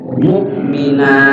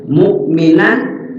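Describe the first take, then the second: First: The word ends with a long a, no n. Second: The word ends with a short a and n. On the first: The reader stops on this word. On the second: The reader continues without stopping.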